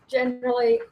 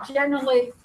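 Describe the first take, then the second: First: Generally jumps much higher in pitch; high lilting generally. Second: Said in the usual way. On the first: Real, not acted. Group leader lifting her voice on the next mood, Generally sung high. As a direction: lift Generally up high, a playful turn. Listing her moods in turn.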